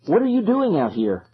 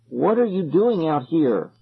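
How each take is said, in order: First: High, puzzled call. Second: Slow, deliberate repeated question; suppressed fright. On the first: Calling to silent kids in fog, urgent question. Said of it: "I called to them". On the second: Repeating it to staring kids, fear held in. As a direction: hold the fear down and ask slowly. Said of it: "trying not to sound as frightened as I felt". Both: A narrator's reading.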